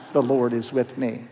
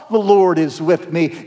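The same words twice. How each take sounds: First: Much softer, lower muttered "The Lord is with me"; low doubtful mutter; muttered disbelief. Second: Dry mock of "The Lord is with me"; flat sarcastic echo; sarcastic repeat. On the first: Acted. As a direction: mumble it to yourself, unconvinced. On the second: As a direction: toss the words back in disbelief. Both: Gideon repeats the angel mockingly.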